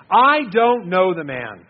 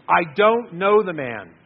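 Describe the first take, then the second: First: Very slow and much louder, swearing it; most forceful denial. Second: Slow, louder, each word pushed out; forceful denial. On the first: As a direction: hammer out the final denial. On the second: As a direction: deny it firmly, word by word. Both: Acted. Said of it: "Peter got a little more forceful in his denial each time".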